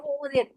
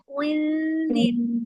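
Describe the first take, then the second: First: The lips stay rounded, giving a w-like sound. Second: The lips relax, giving a hidden nasal sound. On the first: The speaker calls it wrong. "अगर रिलैक्स नहीं करेंगी तो वाओ ही सुनाई देगा, ओ जीर ओ जीर, ऐसे नहीं" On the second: The speaker calls it right. "ऊ के बाद फौरन अपने होठों को रिलैक्स कर दे नून के लिए"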